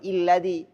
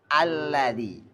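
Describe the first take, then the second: First: The word begins with an i vowel. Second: The word begins with an a vowel. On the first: The speaker calls it wrong. "Enggak boleh mulai I, enggak boleh illadhi" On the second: The speaker calls it right. "harus alladhi"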